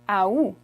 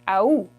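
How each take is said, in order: First: It begins with an audible A sound. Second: The same.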